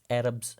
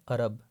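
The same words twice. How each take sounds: First: Arabs said "AR-ubs", opening on the a of "cat"; careful model of Arabs, flat a first; correct English pronunciation. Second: Arab said wrongly as "uh-RUB", with a weak first vowel; wrong-way Arab, schwa in place of the open a; mispronunciation demo. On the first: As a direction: say Arabs with an open front a, "ARR-ubz". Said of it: "you will pronounce that word as". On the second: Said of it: "not Arab". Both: Shown as a demonstration.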